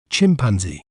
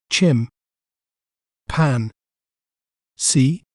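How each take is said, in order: First: Said in the usual way. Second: "chim, pan, see" with a long pause after each syllable; "chim, pan, see" as three separate beats, lifting on the last. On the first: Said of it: "We may pronounce it as". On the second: Shown as a demonstration. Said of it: "breaking down a word".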